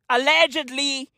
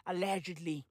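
First: Said in the usual way. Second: Allegedly, said far softer and lower; hushed. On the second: Shown as a demonstration. Covering himself about mob ties, hushed murmur. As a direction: murmur it like a legal disclaimer. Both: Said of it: "repeats allegedly hushed".

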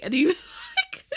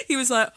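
First: Laughing through the words; bursting into laughter. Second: Said in the usual way. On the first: Real, not acted. Laughing while starting the story.

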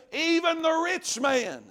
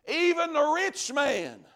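Both takes have the same delivery.

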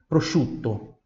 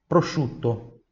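Both takes have the same delivery.

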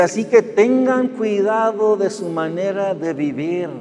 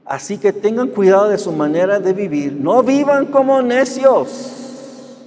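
First: Slow scripture reading. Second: Emphatic scripture reading. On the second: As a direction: proclaim the verse and drag out No vivan como necios. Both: Shown as a demonstration. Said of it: "¿Sí escucharon eso?".

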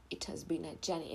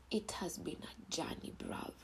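First: Said in the usual way. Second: Soft unvoiced whisper; hushed whisper to the listeners. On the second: Real, not acted. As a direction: breathe it like a confession. Whispered confession.

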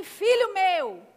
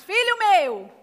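First: Slow read to repeat. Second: Louder repeat. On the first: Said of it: "Diz assim". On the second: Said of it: "vocês estão bem treinados". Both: Shown as a demonstration.

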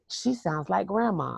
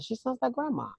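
First: Said in the usual way. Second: Grandma's high call. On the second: Retold or imitated. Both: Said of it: "Cause my grandmother had this particular really high yell".

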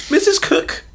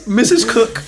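First: Put-on much higher old lady call; squeaky grandma voice. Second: Lightly voiced old lady calling; a hint of a granny; grandma voice. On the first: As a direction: pitch it way up like a granny. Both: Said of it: "It's Tim Cook's grandma".

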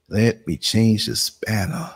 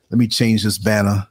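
First: Slow, stretched-out words while busy; drawn out. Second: Said in the usual way. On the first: Real, not acted. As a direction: draw each word out as you fiddle with the task. Same phrase repeated, drawn out.

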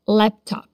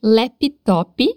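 First: "laptop" without extra vowels, ending clipped on p; "laptop" said tight, no vowel after p; "laptop" sem vogais extras; right English pronunciation. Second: "laptop" as lép-i-tó-pi with extra vowels; "laptop" with added i sounds, Portuguese style; "laptop" pronunciado lépitópi; wrong Brazilian pronunciation. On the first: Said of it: "mas é laptop". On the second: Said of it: "não é laptop". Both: Shown as a demonstration.

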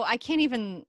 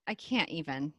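First: Said in the usual way. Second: Softer, falling resigned repeat; quiet. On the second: Shown as a demonstration. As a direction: drop the voice on the repeat.

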